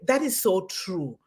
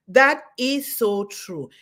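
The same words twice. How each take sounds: First: Said in the usual way. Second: Slow, weighty affirmation with That hit hard; emphatic repeat. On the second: Real, not acted. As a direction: lean into That and draw the whole line out.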